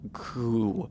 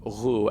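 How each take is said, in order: First: It begins with a plain hard g sound. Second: It begins with a rough throaty fricative sound. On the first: "as opposed to like gu" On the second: "I'm pronouncing this like a uh, uvular fricative"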